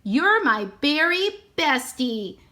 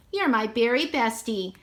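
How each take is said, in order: First: Slow, lightly voiced parrot chirp; a hint of a talking parrot. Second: Said in the usual way. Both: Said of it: "parrots talk".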